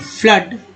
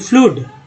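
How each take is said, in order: First: The vowel is a short 'uh' sound. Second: The vowel is a long 'oo' sound. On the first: The speaker calls it right. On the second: The speaker calls it wrong.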